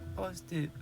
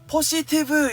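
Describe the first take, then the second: First: The word is said very quietly and shyly. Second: The word is said loudly and boldly. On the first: The speakers are embarrassed to speak up. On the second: The speaker is not embarrassed to speak up.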